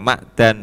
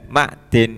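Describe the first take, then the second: First: The vowel after the d is 'a'. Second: The vowel after the d is 'i'. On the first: "bifat kidalihi ... kawaca fathah dale" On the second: "kawaca kasroe dal"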